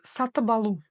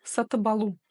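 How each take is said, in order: First: Said linked with a voiced b before алу. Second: Said linked with a voiced b before алу.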